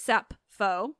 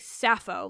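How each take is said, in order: First: The middle consonant is a p-sound. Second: The middle consonant is a plain f. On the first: "in modern Greek, actually in ancient Greek too, it's Sappho" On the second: "We say Sappho, like as if the P P H is just making that F sound"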